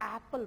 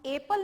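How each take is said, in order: First: The first vowel is the short 'a' sound. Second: The first vowel is the long 'ay' sound. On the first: The speaker calls it right. "एप्पल बोल रहे हैं" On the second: The speaker calls it wrong. "हम एप्पल नहीं बोल रहे हैं"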